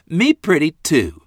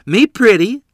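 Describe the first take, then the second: First: Put-on high childlike echo of her own words; a small girl proudly repeating herself; little girl voice. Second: Put-on high, loud childlike squeal; little girl voice. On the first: Little sister at the mirror again, high child voice. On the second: Little sister at the mirror, high and loud little girl voice. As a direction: play a tiny girl delighted with herself. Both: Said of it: "Lorene said".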